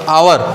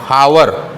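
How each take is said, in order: First: The word begins with a vowel sound. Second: The word begins with an h sound. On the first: The speaker calls it right. "Silent है" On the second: The speaker calls it wrong. "ये गलत है, हावर नहीं होता"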